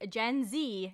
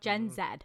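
First: The last letter is said as 'zee'. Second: The last letter is said as 'zed'. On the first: This is the American way of saying the letter. "they made it very clear that it's Gen Z" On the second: This is the Canadian way of saying the letter. "not Gen Z"

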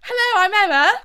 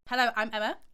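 First: It sounds happy and fun. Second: It sounds very serious.

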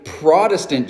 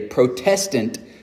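First: The stress is on the first syllable. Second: The stress is on the second syllable. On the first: It names the type of church. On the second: The church descends from those protesting.

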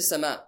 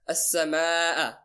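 First: The vowel before the glottal stop is kept short. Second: The vowel before the glottal stop is stretched long. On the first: The speaker calls it wrong. "You don't say sama'a" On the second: The speaker calls it right. "you do mad"

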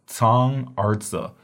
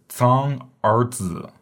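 The two takes are said the same way.

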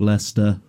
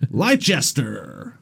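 First: The name is pronounced the local British way. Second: The name is pronounced the way Americans say it.

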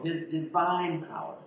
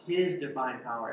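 First: The word 'divine' is stressed. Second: The word 'His' is stressed. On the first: "you put an emphasis on each word" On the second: "you put an emphasis on each word"

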